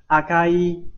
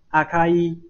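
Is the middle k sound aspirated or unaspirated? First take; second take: unaspirated; unaspirated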